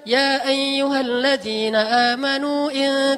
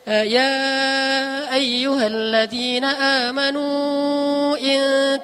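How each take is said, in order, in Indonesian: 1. Vokal di akhir 'amanu' dibaca pendek. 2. Vokal di akhir 'amanu' dibaca panjang. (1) "ada yang membaca pendek" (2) "Kalau munfasil ada yang membaca panjang"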